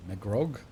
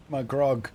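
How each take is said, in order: First: "Magrog" with a rising, querying tune; puzzled rise on "Magrog"; questioning name. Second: "Magrog" louder, with a falling tune; punched, falling "Magrog"; emphatic name. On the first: Puzzling over the character's name. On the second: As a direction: declare "Magrog" forcefully. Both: Real, not acted.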